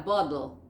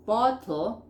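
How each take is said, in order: First: "bottle" said like "boddle"; American flapped T. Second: "bottle" with a true T in the middle; unflapped T in "bottle"; crisp T. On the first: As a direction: turn the T of "bottle" into a D. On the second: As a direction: sound the T of "bottle" clearly. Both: Shown as a demonstration. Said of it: "te cambian una T por una D".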